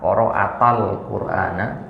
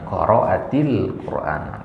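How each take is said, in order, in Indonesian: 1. Vokal penghubungnya adalah a. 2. Vokal penghubungnya adalah i. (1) "Kalau dibaca ta, qara'atal Qur'ana kurang" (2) "itulah yang enak didengar"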